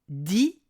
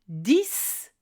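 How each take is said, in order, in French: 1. La consonne finale est muette. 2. La consonne finale se prononce s. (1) "s'il est suivi d'un mot commençant par une consonne" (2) "à la fin d'une phrase, seul ou dans un calcul"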